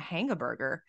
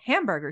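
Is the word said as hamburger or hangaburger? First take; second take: hangaburger; hamburger. First: The word is said as hangaburger. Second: The word is said as hamburger. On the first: The speaker calls it wrong. "why do you call it a hangaburger?" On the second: The speaker calls it right. "Cause I was like"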